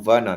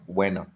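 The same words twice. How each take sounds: First: The name begins with a V sound. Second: The name begins with a W sound. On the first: The speaker calls it right. "I know it's V because like Timo Werner" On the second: The speaker calls it wrong. "not Werner"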